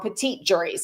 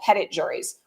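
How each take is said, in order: First: The word is said with a French pronunciation. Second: The word is said with an English pronunciation.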